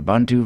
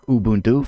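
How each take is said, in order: First: It is said in the speaker's plain accent. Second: It is said in a Southern African accent.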